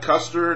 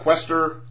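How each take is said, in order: First: The name is said like Custer. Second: The name is said like Quester. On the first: "Not Custer" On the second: "not Quester"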